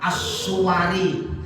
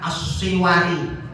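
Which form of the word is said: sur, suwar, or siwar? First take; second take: suwar; siwar. First: A u follows the s, then w and a. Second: An i follows the s, then w and a. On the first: "boleh dibaca as-suwari, wawunya fathah" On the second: "boleh dibaca as-siwari"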